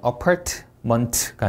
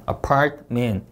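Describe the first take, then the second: First: "apartment" drawn out with released t's; added syllables. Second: "apartment" with both t's unreleased; no added syllables. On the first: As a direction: split "apartment" slowly into extra Korean-style syllables. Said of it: "apartment가 아니라". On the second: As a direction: run "part-men" together in "apartment". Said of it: "아니라 apartment". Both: Shown as a demonstration.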